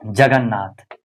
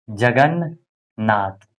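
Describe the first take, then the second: First: Said in the usual way. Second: Drawn out very slowly, each syllable apart; teacher stretching जगन्नाथ to show its parts. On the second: Shown as a demonstration. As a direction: spell it out slowly for the class. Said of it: "जगन्नाथ में क्या हो जाएगा".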